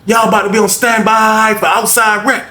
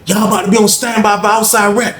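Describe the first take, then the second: First: Hoog en luid geschreeuwd; guard shouting. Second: Hoger, omroepende cipier; guard announcing. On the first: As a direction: schreeuw het door de hele afdeling. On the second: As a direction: kondig het aan als bewaakster. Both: Retold or imitated. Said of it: "Lady said".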